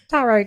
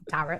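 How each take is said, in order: First: The word is said without rhyming with carrot. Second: The word is said to rhyme with carrot. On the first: The speaker calls it right. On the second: The speaker calls it wrong.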